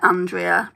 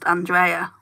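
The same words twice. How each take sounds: First: The name is said with an English pronunciation. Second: The name is said with a German pronunciation. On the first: The speaker calls it wrong. "in the U K everyone pronounces it" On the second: The speaker calls it right. "it's actually pronounced"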